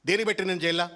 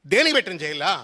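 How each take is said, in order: First: Said in the usual way. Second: Louder, sarcastic echo ending on a rise; mock-outraged retort, rising; mocking indignant repeat. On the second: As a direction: throw his whining question back at him, louder. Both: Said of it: "నిన్ను జైల్లో పెట్టినరు అని మాట్లాడుతున్నావు".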